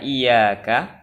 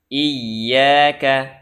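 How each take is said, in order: First: The y sound is short and single. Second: The y sound is held and doubled. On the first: It means your light or your sun. The speaker calls it wrong. "Meringankan ya pada kalimat iyyaka, dibaca iyyaka, maka itu termasuk lahn jali" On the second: It means you alone. The speaker calls it right. "hati-hati jangan sampai tasdidnya tidak terbaca"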